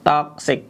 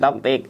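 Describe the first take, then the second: First: It is said with a 'ks' sound, like 'toxic'. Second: It is said with a 't' sound, like 'toktik'. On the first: The speaker calls it right. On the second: The speaker calls it wrong.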